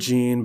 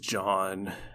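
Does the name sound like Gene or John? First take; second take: Gene; John. First: The name is said like 'Gene', rhyming with 'seen'. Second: The name is said like 'John', rhyming with 'on'. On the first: The speaker calls it wrong. "I call him Gene" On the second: The speaker calls it right. "I know his name is John"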